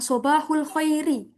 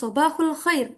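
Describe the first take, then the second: First: The last word ends with a short vowel. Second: The last word ends on a consonant. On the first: The speaker calls it wrong. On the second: The speaker calls it right.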